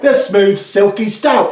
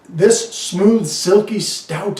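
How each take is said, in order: First: It is said in a put-on Cockney accent. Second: It is read in the speaker's normal accent.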